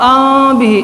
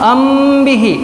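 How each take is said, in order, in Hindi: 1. होंठ खुले रहते हैं, और केवल नासिका की आवाज़ निकलती है। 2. होंठ m पर कसकर एक-दूसरे से मिले रहते हैं। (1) "दूसरा तरीक़ा खुला रखना" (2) "गलत तरीक़ा दोनों होठों को सख्ती से मिलाना"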